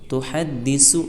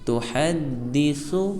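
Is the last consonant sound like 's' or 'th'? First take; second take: s; th. First: The last consonant is a hissing 's' sound. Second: The last consonant is a soft 'th' sound. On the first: The speaker calls it wrong. "सीन नहीं पढ़ना, तुहद्दिसु ऐसे नहीं बोलना" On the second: The speaker calls it right. "नर्म और बारीक"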